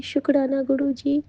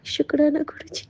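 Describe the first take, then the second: First: Said in the usual way. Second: Whispered thanks. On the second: Retold or imitated. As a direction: whisper "शुक्राना गुरु जी" with no voice. Voice heard from rose petals.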